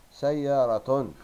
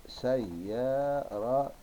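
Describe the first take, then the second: First: سيارة loud and higher, ending in -tun; loud, stretched سيارة as one word; whole-word model reading. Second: سيارة very slow, in parts say-ya-ra-tun; drawn-out, separated syllables of سيارة. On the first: Teacher reads word whole, then split. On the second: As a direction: spell out سيارة sound by sound. Same word broken into syllables. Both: Shown as a demonstration.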